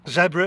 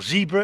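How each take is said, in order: First: Zebra is said the non-American way. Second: Zebra is said the American way.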